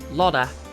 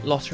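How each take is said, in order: First: The name is said with a soft, D-like T. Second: The name is said with a plain, crisp T.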